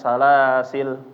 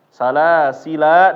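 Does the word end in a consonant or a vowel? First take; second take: consonant; vowel. First: The word ends on the consonant l. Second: The word ends with a final vowel a. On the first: "Sampai di lam aja, alifnya nggak masuk" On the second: "Kalau waqaf boleh dimasukin juga. Salasila boleh"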